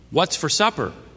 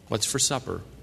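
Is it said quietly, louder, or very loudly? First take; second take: louder; quietly. First: It is said a little louder. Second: It is said at normal volume.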